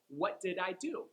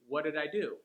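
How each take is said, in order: First: The unstressed words are said fully. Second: The unstressed words are reduced to schwa sounds.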